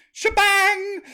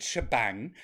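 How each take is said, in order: First: Shebang! shouted high and loud, savoring it; relishing the word. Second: Said in the usual way. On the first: Shown as a demonstration. Host savours the word shebang, shouting it high and loud. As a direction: belt out Shebang! with glee. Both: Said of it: "that's a good word".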